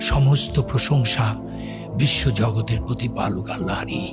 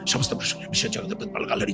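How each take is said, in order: First: The words are spoken slowly and deliberately. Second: The words are rattled off very fast. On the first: "চোখে জল চলে আসে।" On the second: "আমি সূরা ফাতিহাটা বাংলায় এত দ্রুত বলতে পারবো"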